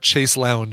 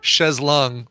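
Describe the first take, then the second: First: The second word sounds like 'lounge'. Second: The second word sounds like 'long'. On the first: The speaker calls it wrong. "not chaise lounge" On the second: The speaker calls it right. "It's chaise longue"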